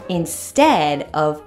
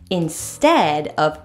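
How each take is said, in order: No difference in how they are said.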